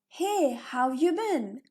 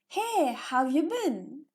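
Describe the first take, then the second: The two takes are said the same way.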